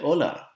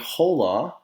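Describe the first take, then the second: First: The initial h is silent. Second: The initial h is pronounced aloud. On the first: The speaker calls it right. "The H in Spanish is silent. we say hola" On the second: The speaker calls it wrong. "we don't say hola"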